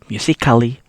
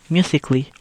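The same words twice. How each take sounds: First: The A in the ending is sounded. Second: The A in the ending is silent. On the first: The speaker calls it wrong. "You not read it like" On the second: The speaker calls it right. "we only have to read"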